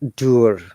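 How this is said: It ends with a clearly pronounced R sound. "what about the the American?"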